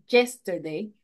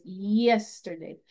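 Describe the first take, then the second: First: The first y sound is hard and strong. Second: The first y sound is soft and light. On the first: The speaker calls it wrong. "No es yesterday" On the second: The speaker calls it right. "se suaviza un poco"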